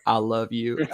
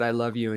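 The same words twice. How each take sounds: First: Slight Southern drawl on "I"; Southern accent. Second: Said in the usual way. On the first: Retold or imitated. Retelling a call to mom, Southern accent. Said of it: "I guess I said it like". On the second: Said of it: "I think I said".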